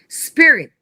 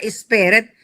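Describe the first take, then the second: First: It starts directly with the 's' sound. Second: It starts with an added 'e' sound. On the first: The speaker calls it right. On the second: The speaker calls it wrong.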